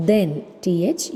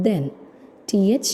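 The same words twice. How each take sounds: The two takes are said the same way.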